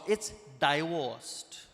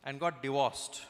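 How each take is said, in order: First: "divorced" stretched into "die-woooast"; very slow Indian-accented "divorced", first syllable like "die"; pompous correction. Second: "divorced" said as "dee-wossed"; Indian-accented "divorced" with short first vowel and W; Indian mispronunciation. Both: Retold or imitated. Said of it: "it's not pronounced divorced".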